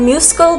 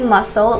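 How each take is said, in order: First: The c is sounded as a k. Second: The c is silent, like an s. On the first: The speaker calls it wrong. "commonly mispronounced ... because of the S C" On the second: The speaker calls it right. "but it's actually muscle"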